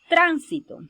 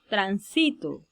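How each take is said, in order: First: The stress is on the first syllable. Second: The stress is on the second syllable. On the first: It is the noun for traffic. "una palabra esdrújula" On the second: It is the present tense, I pass. "una palabra grave"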